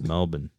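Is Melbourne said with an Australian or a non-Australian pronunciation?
Australian. It is said with an Australian pronunciation. The speaker calls it right. "they're going to be like, no, it's Melbourne"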